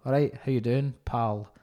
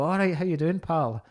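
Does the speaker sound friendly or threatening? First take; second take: threatening; friendly. First: It sounds hostile and threatening. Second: It sounds warm and friendly.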